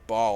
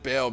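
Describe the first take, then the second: First: The vowel sounds like the one in 'tall'. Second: The vowel sounds like the one in 'pale'. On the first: The speaker calls it wrong. "I used to call him Ball all the time" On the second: The speaker calls it right. "that's how you actually pronounce it right"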